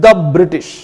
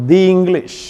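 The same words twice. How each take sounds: First: "the" said short as "dha" before "British"; "the" as "thuh". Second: "the" said long as "dhee" before "English"; "the" as "thee". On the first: Teacher showing students "the" before a consonant, short "dha". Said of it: "അതുകൊണ്ട് ദ എന്നേ pronounce ചെയ്യൂ". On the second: Teacher showing students "the" before a vowel, long "dhee". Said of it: "English എന്ന് പറയുമ്പോഴോ". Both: Shown as a demonstration.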